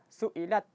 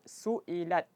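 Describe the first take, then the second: First: Breath stays held after the final t. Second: Breath flows out audibly after the final t. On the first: The speaker calls it wrong. "jangan dibaca su'ilat. Ah, jangan tertahan" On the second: The speaker calls it right. "pastikan nafasnya mengalir"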